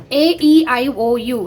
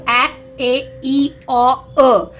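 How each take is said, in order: First: Said in the usual way. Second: A, E, O said as short phonics sounds, not letter names. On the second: Shown as a demonstration. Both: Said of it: "the sounds are".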